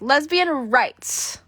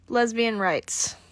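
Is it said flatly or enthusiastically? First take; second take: enthusiastically; flatly. First: It is said with lively enthusiasm. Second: It is said flatly, without enthusiasm.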